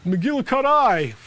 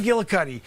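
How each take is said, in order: First: McGillicuddy said slowly, ending rhymes with tie. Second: Said in the usual way. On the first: Shown as a demonstration. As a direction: drag out McGillicuddy with a final -tie. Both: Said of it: "You wanna try to say I pronounced it wrong?".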